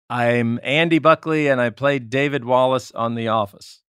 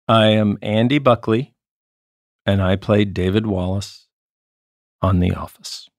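First: It is said at a faster pace. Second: It is said at a normal pace.

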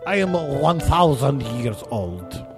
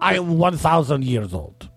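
First: The voice sounds echoing, with added reverb. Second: The voice sounds dry, with no added reverb.

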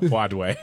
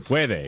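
First: The word has an anglicized English pronunciation. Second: The word has a native Spanish pronunciation. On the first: The speaker calls it wrong. "not puede" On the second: The speaker calls it right. "is how you're supposed to say that"

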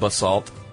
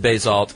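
First: The stress is on the second syllable. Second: The stress is on the first syllable. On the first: The speaker calls it right. "it's actually pronounced basalt... the emphasis on salt" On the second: The speaker calls it wrong. "You said basalt"

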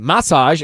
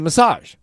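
First: It is said in a British accent. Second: It is said in an American accent.

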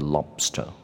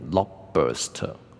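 First: No vowel sound follows the b. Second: A short vowel sound follows the b. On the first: The speaker calls it right. "所以这个就是lobster" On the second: The speaker calls it wrong. "很多人会念成lobster"

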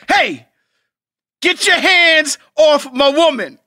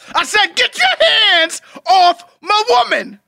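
First: It is yelled loudly. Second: It is yelled even louder.

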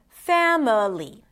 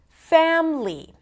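First: The word is said with three syllables. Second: The word is said with two syllables. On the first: "instead of" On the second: "Reducing three syllables into two"

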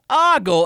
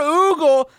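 First: The first vowel is a short O sound. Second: The first vowel is an oo sound. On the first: "not ogle" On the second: "never ever oogle like Google without the G"

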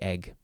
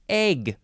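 First: The vowel is a short E sound. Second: The vowel is a long A sound. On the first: "I just say egg" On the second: "you can also pronounce it egg. Some people like to put in that long A sound"

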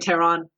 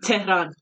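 First: It is said with an English pronunciation. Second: It is said with a native Persian pronunciation. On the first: "So in English, they say Tehran" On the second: "You said it differently"

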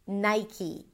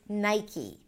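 No difference in how they are said.

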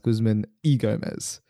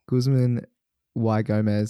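First: The middle word sounds like 'ee'. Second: The middle word sounds like 'why'. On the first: The speaker calls it right. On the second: The speaker calls it wrong.

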